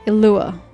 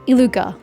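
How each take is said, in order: First: The name is said without a g sound. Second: The name is said with a g sound. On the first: The speaker calls it right. "eliminate the G ... emphasis is on the second syllable" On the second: The speaker calls it wrong. "who's not pronounced Iluga"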